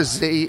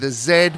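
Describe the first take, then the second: First: The letter is said the American way, zee. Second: The letter is said the Australian way, zed.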